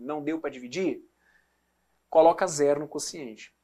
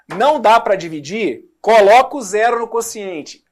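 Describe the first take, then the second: First: It is said in a gentle tone. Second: It is said in a harsh tone.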